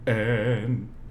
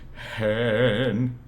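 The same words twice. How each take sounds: First: It starts with a hard glottal catch. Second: It starts with a clearly voiced H sound. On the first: "a glottal any" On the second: "if you were to have a vocalized H"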